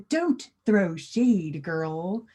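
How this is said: It is said in a careful, formal way. The speaker calls it wrong. "too formal"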